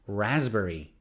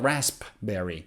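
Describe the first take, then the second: First: The P sound is left out. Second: The P sound is pronounced. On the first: The speaker calls it right. "it's raspberry" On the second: The speaker calls it wrong. "So it's not raspberry"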